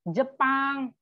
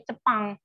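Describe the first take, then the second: First: Said in the usual way. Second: "Cepang" said with a ch sound, as che-pang; "Cepang" starting with ch; spelling pronunciation. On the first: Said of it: "Jepang itu juga cara nulisnya pakai C". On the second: Shown as a demonstration. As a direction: read the Turkish spelling "Cepang" literally. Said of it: "cara nulisnya pakai C".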